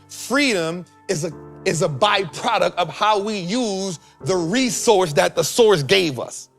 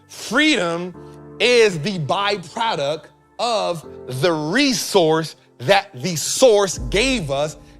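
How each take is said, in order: First: It is said at normal speed. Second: It is said slowly and deliberately.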